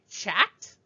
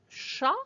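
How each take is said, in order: First: The word ends with an audible T sound. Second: The word ends on the vowel, no T sound. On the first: The speaker calls it wrong. "I don't say chat" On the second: The speaker calls it right. "you don't even hear any sound for the T"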